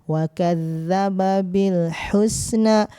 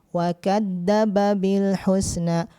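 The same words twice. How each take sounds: Both takes have the same delivery.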